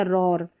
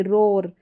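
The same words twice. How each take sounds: First: रॉर with an open "aw" before the r; OAR as "awr". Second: रोर with a long "oh" before the r; OAR as "or". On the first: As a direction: slowly model रॉर with the open vowel. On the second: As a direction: slowly model रोर with a closed O vowel. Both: Shown as a demonstration. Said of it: "दोनों इसके उच्चारण होते हैं".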